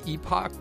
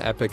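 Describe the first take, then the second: First: It is said with the British pronunciation. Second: It is said with the American pronunciation. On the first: "That's the UK pronunciation" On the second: "Epic is actually the proper way to say it in US English"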